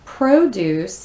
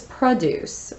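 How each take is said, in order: First: "Produce" stressed on the first syllable, PRO-duce; slow, clear PRO-doos for "Produce"; noun pronunciation. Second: "produce" stressed on the second syllable, pruh-DUCE; light first syllable in "produce", weight on the end; verb pronunciation. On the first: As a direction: say "Produce" as the noun, long o up front. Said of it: "Produce is a noun". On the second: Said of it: "used as a verb". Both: Shown as a demonstration.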